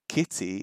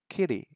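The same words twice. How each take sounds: First: It is said in a non-American accent. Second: It is said in a North American accent. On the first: "not kitty as I would say in English" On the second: "it says it right here in North American English"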